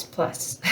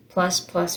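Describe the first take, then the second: First: A breathy whispered "plus."; wry whispered aside, "plus.". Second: Said in the usual way. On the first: Pretend. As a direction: drop the last "plus." to a whisper. Trailing list of husband's injuries.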